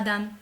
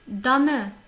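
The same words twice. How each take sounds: First: The final e is silent. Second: The final e is pronounced aloud. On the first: The speaker calls it wrong. "Ce n'est pas dame" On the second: The speaker calls it right. "le E, il n'est pas muet"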